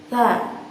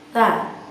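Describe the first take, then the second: Both takes have the same delivery.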